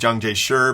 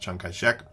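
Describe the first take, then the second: First: The name is said in standard Mandarin form. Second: The name is said in the bearer's own form. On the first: This is the standard national form of the name. The speaker calls it wrong. "that's using sort of standard Mandarin pronunciation" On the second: This is how the man himself said his name. The speaker calls it right. "he pronounced it Chiang Kai-shek"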